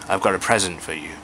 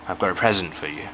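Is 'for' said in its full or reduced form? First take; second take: reduced; reduced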